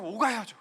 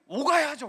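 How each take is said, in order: First: Said in the usual way. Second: 오가야죠 hit high and loud with a fall; emphatic. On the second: Acted. Pastor insisting to the congregation, high emphatic 오가야죠. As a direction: punch 오가야죠 hard, then let it fall. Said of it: "repeated with emphasis".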